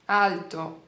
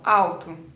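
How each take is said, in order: First: The L is a clear consonant with raised tongue. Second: The L is vocalized and sounds like a U. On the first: "em italiano ela vai ser alto" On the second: "Ela vira um U"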